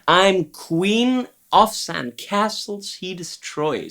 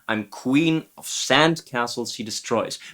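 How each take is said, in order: First: The stress falls on "of". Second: The stress falls on "sand".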